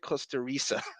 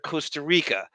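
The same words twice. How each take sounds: First: The c is said as an s sound. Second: The c is said as a k sound. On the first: "now it's a S" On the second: "the hard C with the k"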